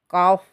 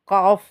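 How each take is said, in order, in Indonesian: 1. Diucapkan tebal, dengan vokal yang lebih gelap. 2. Diucapkan tebal, dengan vokal yang lebih gelap.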